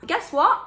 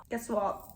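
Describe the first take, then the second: First: Excited tease. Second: Said in the usual way. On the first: Real, not acted. Teasing reveal of forbidden love.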